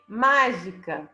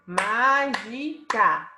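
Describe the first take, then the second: First: Said in the usual way. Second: "Mágica" in three slow separate syllables, MÁ stretched; stress on MÁ. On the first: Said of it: "Qual a sílaba tônica?". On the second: Shown as a demonstration. Teacher showing the tonic syllable, slow "Mágica" stressed on MÁ. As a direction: spell out "Mágica" by syllables, leaning on MÁ. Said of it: "A sílaba tônica é ma".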